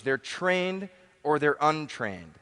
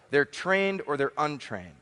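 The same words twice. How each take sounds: First: Slowed right down, leaning on "trained"; slow emphatic repeat. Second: Said in the usual way. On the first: Shown as a demonstration. Speaker to seminar crowd, slow emphatic repeat. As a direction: repeat it slowly so "trained" lands.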